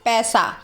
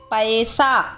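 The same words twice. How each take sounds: First: The vowel is said the casual everyday way. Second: The vowel is said the careful standard way. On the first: The speaker calls it wrong. "आजकल बोलचाल की भाषा में इसे कैसे बोला जाता है? ... जो कि सही नहीं है" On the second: The speaker calls it right. "क्या सही उच्चारण है?"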